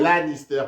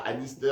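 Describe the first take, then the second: First: The name begins with an L sound. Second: The name begins with a vowel sound. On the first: The speaker calls it right. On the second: The speaker calls it wrong. "pas Annister"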